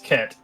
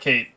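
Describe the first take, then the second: First: The vowel is a short 'eh' sound. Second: The vowel is a long 'ay' sound. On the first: The speaker calls it right. "it's Ket" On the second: The speaker calls it wrong. "it's not Kate"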